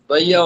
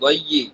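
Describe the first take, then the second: First: The vowel after the y is a. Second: The vowel after the y is i. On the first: The speaker calls it wrong. "দইয়া হবে না" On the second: The speaker calls it right.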